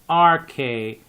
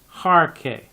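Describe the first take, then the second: First: The word starts with a plain vowel, no h. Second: The word starts with a breathy h sound. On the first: The speaker calls it right. "you just say R K" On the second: The speaker calls it wrong. "and not Harke"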